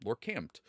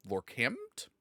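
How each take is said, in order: First: Lorkampt. said firmly with a falling tune; settled fall. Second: Lorkampt? tried with a rising, unsure tune; questioning rise. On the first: Reading out the chat name again, now sure. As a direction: land the name Lorkampt. with certainty. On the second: Reading out an unfamiliar chat name, unsure rise. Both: Shown as a demonstration.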